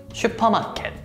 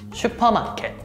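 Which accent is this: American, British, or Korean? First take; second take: Korean; Korean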